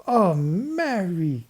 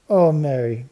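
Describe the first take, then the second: First: Slow, much higher, stretched-out wonder; awed cry. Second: A higher, much louder delighted gasp; excited cry. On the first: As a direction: draw it out in amazement. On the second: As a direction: cry out in happy surprise. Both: A narrator's reading. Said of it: "cried Babs".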